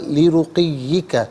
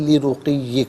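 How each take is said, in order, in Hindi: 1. शब्द के अंत में एक आखिरी 'ka' अक्षर है। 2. शब्द 'ka' के बिना 'ye' पर खत्म होता है।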